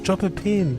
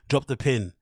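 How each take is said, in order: First: It is said in a soft, intimate tone. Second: It is said in a plain, harsher tone.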